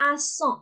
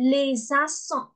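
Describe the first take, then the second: First: Said in the usual way. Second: "les accents" linked by a Z sound; liaison with Z. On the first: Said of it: "အသံလေးဆက်ပါမယ်". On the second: Shown as a demonstration. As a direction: say "les accents" as lay-zak-son. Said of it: "Z အသံန ... ဲ့အသံဆက်ပါတယ်".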